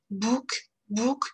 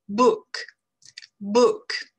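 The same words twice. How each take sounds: First: Book with a tight French ou, lips pushed forward; French-style book. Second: Book with a short relaxed English oo, slight smile. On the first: Teacher showing French learners the wrong French Book. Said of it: "si on prononce le mot français". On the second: Teacher contrasting the English book with the French one for learners. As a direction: say book loose and short, smiling a little. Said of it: "je dis en anglais". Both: Shown as a demonstration.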